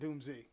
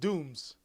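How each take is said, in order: First: The name is said with two syllables. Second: The name is said as one syllable. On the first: The speaker calls it wrong. "It's not Doomsy" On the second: The speaker calls it right. "that is how you say it. It's Dooms"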